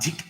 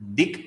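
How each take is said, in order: First: The first consonant is said with a breath puff. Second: The first consonant is said without a breath puff. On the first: "Dik uses Mahaprana" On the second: "Dik uses Alpa Prana"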